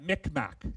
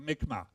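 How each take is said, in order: First: The word ends with a k sound. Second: The word ends without a k sound. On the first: This is an older form that is not very respectful. The speaker calls it wrong. "we actually pronounced that Micmac" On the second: This is how the people say their own name. The speaker calls it right. "the last uh, letter is is silent"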